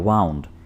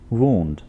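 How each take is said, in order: First: The vowel sounds like 'ow' in 'cow'. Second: The vowel sounds like 'oo' in 'moon'. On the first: The speaker calls it wrong. "कुछ लोग इसको वाउंड बोलते हैं, जो कि बिल्कुल गलत है" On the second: The speaker calls it right. "आपने इसको वूंड बोलना है"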